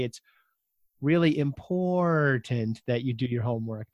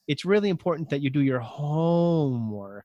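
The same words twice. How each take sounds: First: A different odd stress on "really important that you do your homework"; another wrong emphasis. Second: Odd stress placement on "It's really important that you do your homework"; wrong emphasis. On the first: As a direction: misplace the emphasis again, differently. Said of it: "that doesn't work either". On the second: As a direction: stress the wrong words on purpose. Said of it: "that's strange". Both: Shown as a demonstration.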